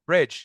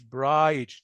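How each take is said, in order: First: The vowel is short, as in 'bid'. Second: The vowel is long, as in 'bide'. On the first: The speaker calls it right. "هنا الاي تتنطق شورت ساوند" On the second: The speaker calls it wrong. "مش برايج. نو no"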